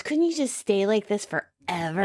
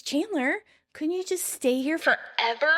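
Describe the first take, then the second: First: Said in the usual way. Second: Higher-pitched, insistent question; insistent repeat. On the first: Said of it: "Monica questions". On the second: Retold or imitated. Monica repeating her question to startled Chandler, insistent. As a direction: repeat it pointedly, pitched up to forever. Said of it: "She repeats".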